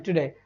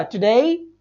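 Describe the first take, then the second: First: टुडे said the usual Indian way, as plain ʈuɖe, soft and low; टुडे as most people wrongly say it, with a plain final e; common wrong pronunciation. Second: टुडे said correctly, ending in a gliding ei with a slight rise; correct pronunciation. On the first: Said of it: "लेकिन हम क्या बोलते हैं?". (टुडे का आम गलत उच्चारण, सपाट ए के साथ) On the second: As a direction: model टुडे as ʈʊɖei, rising at the end. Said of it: "जबकि बोला क्या जाएगा?". (टुडे का सही उच्चारण, अंत में ऐ जैसी ध्वनि) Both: Shown as a demonstration.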